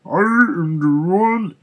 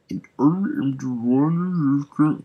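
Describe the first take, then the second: First: Much higher, louder, slow metallic villain; full metallic villain retake. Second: Loud, slow robotic villain voice; first stab at a mechanical voice; metallic voice. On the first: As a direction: boom it like a robot overlord. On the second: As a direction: try out a metallic villain boom. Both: Acted. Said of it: "I was trying to do a metallic voice here".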